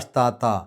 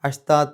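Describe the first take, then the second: First: The word stops on a lengthened final vowel. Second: The ending is hidden nasally into the next word. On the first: The reading pauses at this word. "നിർത്തുകയാണെങ്കിൽ അഷ്താത്ത എന്ന് പറഞ്ഞാൽ നിർത്തുക" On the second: The reading continues without stopping. "നിർത്താതെ പോവുകയാണെങ്കിൽ ... ഇഖ്ഫ ആണ് നിയമം വരിക"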